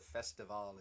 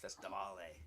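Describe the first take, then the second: First: The word ends on the L sound. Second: A vowel sound is added after the L. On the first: "instead of festival" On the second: "they pronounce the e"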